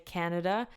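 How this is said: It is said with an English accent. "in my accent we say Canada"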